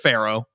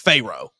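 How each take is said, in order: First: The name is said in an ordinary, plain way. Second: The name is said in an imitated, unusual way. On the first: This is the normal pronunciation of the name. "It's just Pharaoh" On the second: This is how someone else used to say the name. "but it was Pharaoh"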